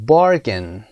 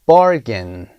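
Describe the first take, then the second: No difference in how they are said.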